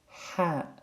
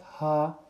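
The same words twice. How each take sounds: First: The h is breathed hard from the throat. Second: The h is a light, plain breath. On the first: The speaker calls it right. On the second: The speaker calls it wrong.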